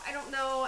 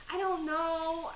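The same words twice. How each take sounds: First: Said in the usual way. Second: Higher, slow sheepish admission; I don't know, shrugging slowly; sheepish shrug. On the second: Real, not acted. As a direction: let the shrug drag out. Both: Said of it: "I'm just saying it".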